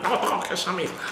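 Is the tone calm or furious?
furious. It is said with much more fury.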